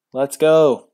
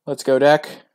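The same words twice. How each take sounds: First: Loud cheer falling on go; much louder, a falling hopeful shout; loud cheer with a falling finish. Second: Loud hopeful cheer rising on deck; much louder, urging the deck on; loud rising call to the deck. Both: Real, not acted. Cheering for the draw.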